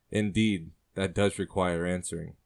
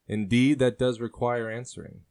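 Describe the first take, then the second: First: Said in the usual way. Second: Man's voice, louder on indeed, a bit higher; sailor's reply. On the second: Acted. Sailor answers the woman's question, loud and charming. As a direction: weigh her question like a charming rogue. Man answers, she later echoes.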